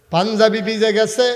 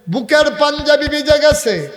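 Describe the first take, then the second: First: Raised, louder preaching with a lift; rising preaching. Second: Very high, loud chanted line; full-force preaching. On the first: Preacher tells of Omar's tear-soaked shirt, rising intensity. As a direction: start lifting the voice, louder. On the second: Preacher tells of Omar's soaked shirt, full-force cry. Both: A narrator's reading.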